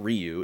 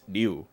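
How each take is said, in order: First: The name is said with an Americanized sound. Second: The name is said with the Japanese sound. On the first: The speaker calls it wrong. "it's not Ryu" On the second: The speaker calls it right. "It's a very specific sound in Japanese"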